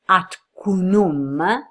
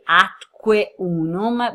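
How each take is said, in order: First: The words run together and the final e drops. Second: Both words are said separately with the final e. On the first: "the elision of the E, so you don't pronounce it, and you say atcunum" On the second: "it should be atque unum"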